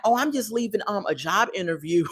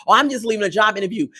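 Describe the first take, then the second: First: Soft, hesitant imitation of a liar; mock a man quietly fibbing; sheepish fib. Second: Fast, dismissive imitation of a liar; mocking repeat. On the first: Acts out J K's lie. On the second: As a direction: rattle off the fib quickly. Mockingly repeats J K's lie.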